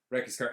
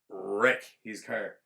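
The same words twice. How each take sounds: First: Said in the usual way. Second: WRECK stretched long and punched; slow, loud stress on "wreck"; drawn-out emphasis. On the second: Real, not acted. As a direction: lean slowly on "wreck" with a rolled start. Drawn-out first take, repeated quickly after.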